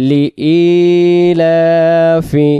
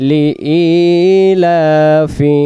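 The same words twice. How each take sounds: The two takes are said the same way.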